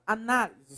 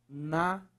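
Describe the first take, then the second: First: Said in the usual way. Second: "Análise" split into separate syllables with long gaps. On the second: Shown as a demonstration. Teacher separating the word for students, "Análise" syllable by syllable. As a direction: say "Análise" one syllable at a time.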